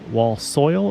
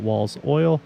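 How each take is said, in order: First: The s sound begins the second word. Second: The s sound ends the first word. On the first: "is it Wall Soil" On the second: "or is it Walls Oil?"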